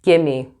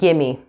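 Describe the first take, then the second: First: The words blend into one reduced word, gimme. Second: The words blend into one reduced word, gimme.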